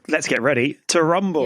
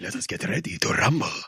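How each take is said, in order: First: It is said in the speaker's own voice. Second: It is said in Clam's put-on character voice.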